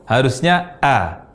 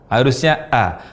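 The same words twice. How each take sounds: No difference in how they are said.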